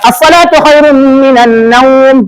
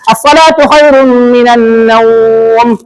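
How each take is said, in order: First: The vowel in naum is held two beats. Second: The vowel in naum is held four beats. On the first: "Ambil dua"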